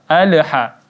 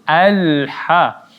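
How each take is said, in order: First: The 'l' ends with a bouncing release. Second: The 'l' is held smoothly without bouncing. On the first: The speaker calls it wrong. "dipantulkan padahal bukan huruf qalqalah" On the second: The speaker calls it right.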